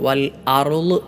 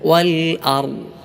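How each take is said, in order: First: The ending has a slight echoing bounce. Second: The ending has no echoing bounce. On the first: The speaker calls it wrong. "ഒരൽപ്പം കൽക്കല കൊടുത്തുകൊണ്ട്" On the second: The speaker calls it right. "അങ്ങനെയല്ല"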